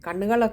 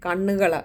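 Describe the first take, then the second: No difference in how they are said.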